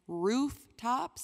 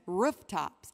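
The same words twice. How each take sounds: First: The vowel in roof is a long ooh. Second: The vowel in roof is a short vowel. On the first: "as in ooh" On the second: "as in er"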